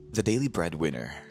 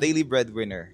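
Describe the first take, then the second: First: It is said in a deeper voice-over voice. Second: It is said casually, like telling a story.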